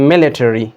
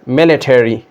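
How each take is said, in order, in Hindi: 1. अमेरिकन उच्चारण, अंत पूरा 'terry' जैसा बोला गया। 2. अमेरिकन उच्चारण, अंत पूरा 'terry' जैसा बोला गया।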